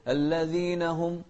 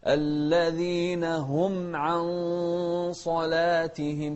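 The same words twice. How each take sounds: First: الذين هم run together; الذين هم without a break; الذين هم joined, wrong. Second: الذين هم with words kept apart; الذين هم recited with a clear break; correct separation. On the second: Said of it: "نفصل بين الكلام". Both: Shown as a demonstration.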